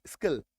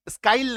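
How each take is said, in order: First: स्किल with a short "ih". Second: स्काइल with an "eye" vowel; wrong vowel. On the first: Teacher correcting to the right word, स्किल with short i. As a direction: say स्किल, rhyming with "hill". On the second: Teacher showing what not to say, स्काइल with "eye". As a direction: misread skill as स्काइल, rhyming with "smile". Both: Shown as a demonstration. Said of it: "स्काइल नहीं".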